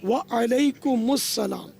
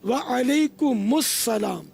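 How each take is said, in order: The two takes are said the same way.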